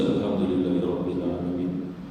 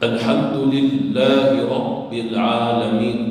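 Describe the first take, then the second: First: Alhamdulillahi Rabbil Alamin low, with single light consonants; low, unstressed wrong reading of Alhamdulillahi Rabbil Alamin; shaddah dropped. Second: Alhamdulillahi Rabbil Alamin slow and strong, ll and bb held; loud, slow "Alhamdulillahi Rabbil Alamin" with pressed doubles; shaddah recitation. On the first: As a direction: run through "Alhamdulillahi Rabbil Alamin" without pressing ll or bb. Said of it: "jangan dibaca". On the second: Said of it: "di situ ada syaddah". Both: Shown as a demonstration.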